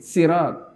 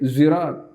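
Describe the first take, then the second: First: It begins with a light, plain s sound. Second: It begins with a buzzing z sound. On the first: "Ada yang baca pakai sin" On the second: "Ada yang membaca lagi pakai zirat"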